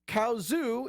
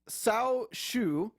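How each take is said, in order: First: The name is read with American English sounds. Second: The name is read with Mandarin Chinese sounds. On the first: The speaker calls it wrong. "is how I would have pronounced it" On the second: The speaker calls it right. "but it's actually"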